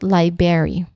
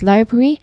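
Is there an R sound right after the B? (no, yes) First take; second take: no; yes. First: No R sound follows the B sound. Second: An R sound follows the B sound. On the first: The speaker calls it wrong. "not library" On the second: The speaker calls it right. "You say it as library"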